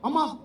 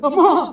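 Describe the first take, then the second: First: It is said plainly, like an ordinary person. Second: It is said in a dramatic, unexpected voice.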